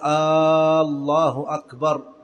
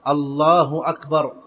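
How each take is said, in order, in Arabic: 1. حركة أول الكلمة الأولى ممدودة. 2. لا تُمَدّ حركة في أي من الكلمتين. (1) "فلا يمد الهمزة في الله، فلا يقول الله أكبر، هذا خطأ" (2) "يجب أن يأتي باللفظ معربا"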